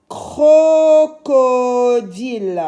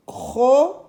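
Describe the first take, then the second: First: Crocodile high, loud and very slow, joined up; stretched syllables. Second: Crocodile in three beats with long gaps; syllable by syllable. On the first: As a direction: hold both Os in "Crocodile". (crocodile très étiré, les O allongés) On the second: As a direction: break "Crocodile" apart: cro, co, dile. (crocodile découpé, pause entre les syllabes) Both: Shown as a demonstration. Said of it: "j'entends o dans la première".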